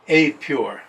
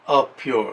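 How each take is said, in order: First: The 'a' is said the English way. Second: The 'a' is said the European way. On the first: "In English" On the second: "if we're from Europe, it would be a pure"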